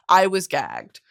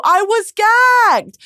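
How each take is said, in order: First: Said in the usual way. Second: High, loud, drawn-out "gagged"; slow, squealing burst of amazement; astounded exclamation. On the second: Real, not acted. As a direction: shout it, stretching "gagged". Exclaims reaction to ending, then repeats.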